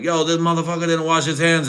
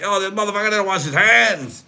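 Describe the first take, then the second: First: Raised, pitched-up mock call-out; mock calling out the guy at the urinal; lightly put-on higher voice; mock outraged voice. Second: Much higher and louder put-on voice; hammed-up high call-out; mock outraged squeal. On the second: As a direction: squeal it like a scandalized onlooker. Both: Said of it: "I was like".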